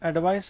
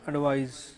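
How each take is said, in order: First: The word ends with an s sound. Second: The word ends with a z sound. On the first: It is the noun meaning a suggestion. "स से बनेगा।" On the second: It is the verb meaning to give a suggestion. "ये ज से बनेगा।"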